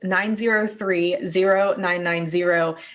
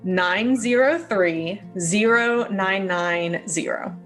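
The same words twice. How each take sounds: First: The number is said at normal speed. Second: The number is said more slowly.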